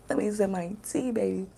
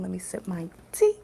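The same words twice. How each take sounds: First: Words around a sip of tea; sipping hot tea. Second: Said in the usual way. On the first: Real, not acted. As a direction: talk while sipping tea.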